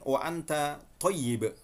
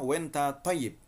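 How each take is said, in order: First: Full Standard form with two separate words, wa anta. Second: Egyptian colloquial form, contracted to wenta. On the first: "tulisannya sama" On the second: "yang Mesir bukan lagi winta, bukan wa anta, tapi wenta"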